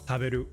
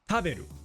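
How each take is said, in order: First: The pitch stays level across every syllable. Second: The high pitch is on the first syllable. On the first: "or even just flat throughout" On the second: "if we were at the start"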